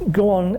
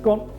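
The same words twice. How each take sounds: First: It sounds unsure and hesitant. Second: It sounds firm and confident. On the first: The speaker does not expect to be obeyed. The speaker calls it wrong. "Didn't sound like I expected it to happen" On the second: The speaker expects to be obeyed. The speaker calls it right. "sounds like he means it"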